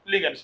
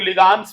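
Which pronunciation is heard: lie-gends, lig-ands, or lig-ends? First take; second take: lig-ends; lig-ands. First: The first syllable is 'lig', then 'ends'. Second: The first syllable is 'lig', then 'ands'. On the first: The speaker calls it right. "लिगेंड्स बोला जाता है" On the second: The speaker calls it wrong. "बहुत लोग लिगांड्स बोलने लगते हैं"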